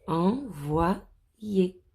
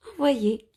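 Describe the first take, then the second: First: Said in the usual way. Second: "Envoyer" repeated higher and louder; stressed repeat. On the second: Shown as a demonstration. Teacher repeating a word for the children, high and emphatic.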